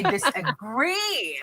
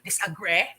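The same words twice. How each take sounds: First: The final vowel is a long E. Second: The final vowel is not a long E. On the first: The speaker calls it right. "we're having a long E sound" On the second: The speaker calls it wrong. "We don't say disagree"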